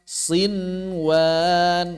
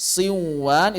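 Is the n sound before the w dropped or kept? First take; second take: kept; dropped. First: The n is clearly pronounced before the w. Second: The n merges into the following w sound. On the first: The speaker calls it right. "Semuanya dibaca izhar" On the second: The speaker calls it wrong.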